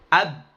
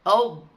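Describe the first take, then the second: First: The vowel is thin and open, like a. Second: The vowel is thick and rounded, like o. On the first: The speaker calls it right. "ditipiskan benar-benar tipis" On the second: The speaker calls it wrong. "nggak boleh"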